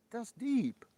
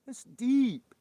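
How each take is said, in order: First: High loud mock awe. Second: Louder still, high hammed awe. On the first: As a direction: ham up being impressed. Mock awe at deep comment. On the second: Streamer repeating the joke louder, hammed-up high awe. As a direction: go bigger on the fake awe.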